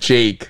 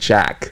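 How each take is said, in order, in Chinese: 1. 这个元音像 cake 里的那个。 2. 这个元音像 cat 里的那个。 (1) "他是Jake" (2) "我们听到杰克会念Jack"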